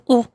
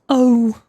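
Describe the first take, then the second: First: The vowel is short and clipped. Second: The vowel is long and drawn out. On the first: The speaker calls it right. "Instead of just saying ah or oh" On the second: The speaker calls it wrong. "It's so dragged out"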